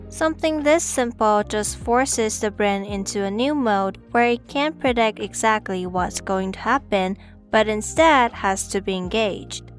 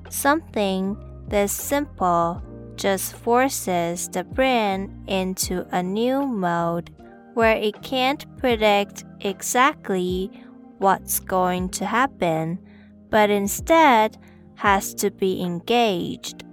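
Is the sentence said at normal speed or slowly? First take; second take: normal speed; slowly. First: It is said at normal speed. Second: It is said slowly.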